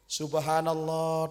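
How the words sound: It is said once, calmly and politely. A courteous reminder that the leader made a mistake. The speaker calls it right. "cara mengingatnya harus santun"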